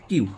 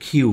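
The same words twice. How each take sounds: First: "কিউ" with unaspirated k; common mistaken pronunciation. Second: Loud "কিউ" with a strongly aspirated k; correct letter pronunciation. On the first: Teacher showing what everyone says for Q, common pronunciation. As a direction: say "কিউ" without a puff of air. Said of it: "সবাই বলি". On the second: Teacher correcting letter Q for learners, careful pronunciation. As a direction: burst air on the k of "কিউ". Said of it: "এটা সঠিক উচ্চারণ হচ্ছে". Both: Shown as a demonstration.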